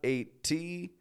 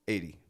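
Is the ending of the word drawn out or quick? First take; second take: drawn out; quick. First: The ending of the word is slow and drawn out. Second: The ending of the word is short and quick. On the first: The speaker calls it wrong. "Not 80" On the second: The speaker calls it right. "It's very quick on the ending"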